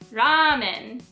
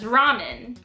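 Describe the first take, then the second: First: The first vowel is drawn out long. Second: The first vowel is said short. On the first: It sounds Japanese. The speaker calls it right. "The extended A is the correct way to pronounce ramen" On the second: It sounds foreign. The speaker calls it wrong. "the foreigner way of saying ramen"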